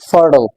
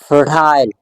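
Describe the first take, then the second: First: It is said in an American accent. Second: It is said in a British accent. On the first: "American English accent, so you have to pronounce the same word as fertile" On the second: "आप इसको बोलेंगे British English में fertile"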